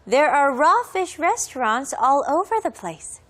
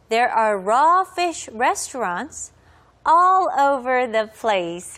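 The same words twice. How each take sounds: First: The sentence is spoken at a faster pace. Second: The sentence is spoken at a slower pace.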